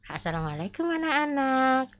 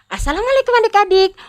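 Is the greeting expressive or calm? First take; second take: calm; expressive. First: It is said in a quiet, calm way. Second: It is said in a lively, expressive way.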